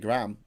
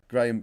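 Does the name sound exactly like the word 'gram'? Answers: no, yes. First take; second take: yes; no. First: The name sounds just like the word gram. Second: The name does not sound like the word gram. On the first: The speaker calls it wrong. "They they they say gram, as in graham crackers" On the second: The speaker calls it right. "Americans don't say Graham correctly"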